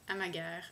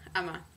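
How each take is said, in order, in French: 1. Le nom se dit à la manière française. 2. Le nom se dit à la manière danoise. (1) "j'imagine qu'on dirait en français euh, Amag Amager" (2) "la prononciation danoise ... ça se prononce apparemment Ama"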